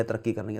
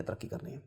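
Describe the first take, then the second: First: Echoed again, much softer; a quieter echo of the mantra; fading repetition. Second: Last echo, barely whispered. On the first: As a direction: let the refrain sink away. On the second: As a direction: whisper the refrain as it fades out. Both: Acted. Mantra of progress repeated, fading.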